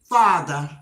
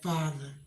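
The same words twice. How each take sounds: First: It is said in a normal, non-lowered voice. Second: It is said in a low voice.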